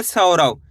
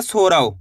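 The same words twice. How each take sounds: First: सौरव with an open "sau" opening; correct "au" vowel. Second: सौरव misread as "SO-rav"; mispronounced "o" vowel. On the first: Teacher models the reading for learners, correct सौरव with a full au. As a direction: say सौरव as "SAU-rav", au not o. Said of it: "इसी तरीके से आपको पढ़ना है". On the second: Teacher shows learners the misreading, सौरव said as "sorav". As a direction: say सौरव with a plain o instead of au. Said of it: "ऐसे नहीं पढ़ना है". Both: Shown as a demonstration.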